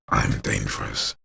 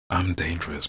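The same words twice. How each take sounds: First: A put-on, stereotypically menacing villain voice. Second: A normal voice, playful and almost flirtatious. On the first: The speaker calls it wrong. "as opposed to" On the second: The speaker calls it right. "unhinged with your normal voice, playful, almost flirtatious"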